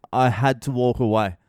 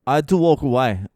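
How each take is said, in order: First: Said in the usual way. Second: Worked-up. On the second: Real, not acted. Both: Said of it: "I was having a meltdown".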